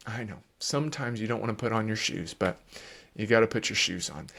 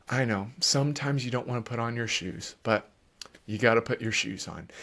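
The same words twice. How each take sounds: First: Softer, low, steady, a bit quick; calm parent reply. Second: Calm parent reply. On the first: Parent modeling a calm answer to the tantrum, softly. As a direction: answer calmly without rising. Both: Shown as a demonstration. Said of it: "if you will stay calm".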